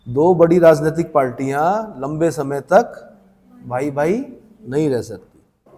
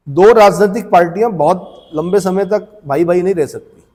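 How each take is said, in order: First: Deliberate phrase-by-phrase repeat. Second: Said in the usual way. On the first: Shown as a demonstration. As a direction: pause after "पार्टियां" and after "तक", slowing on "भाई भाई नहीं रह सकती". Teacher repeats point phrase by phrase.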